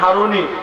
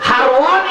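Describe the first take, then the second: First: The name is said with a short middle, Haruni. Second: The name is said with a -wa- middle, Harwani. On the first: This is the commonly used form. "আমরা বলি যে Usman হারুনি" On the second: This form reflects his home region. "হারওয়ানি হবে এটা"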